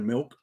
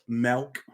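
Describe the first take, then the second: First: It is said with a plain standard accent. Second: It is said with a rural country accent. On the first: This is the usual way to say it. "instead of" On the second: This is how the speaker's mother says it. "she says words like"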